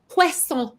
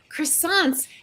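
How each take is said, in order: First: It is said with a French-style accent. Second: It is said with a plain American accent.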